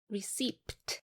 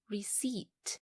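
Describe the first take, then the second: First: The P sound is pronounced in the word. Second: The P sound is silent in the word. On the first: The speaker calls it wrong. "do not read it as receipt" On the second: The speaker calls it right. "The letter P is silent, the correct pronunciation is receipt"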